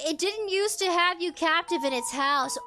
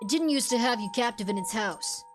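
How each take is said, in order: First: It is read in the speaker's ordinary voice. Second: It is read in an imitated character voice.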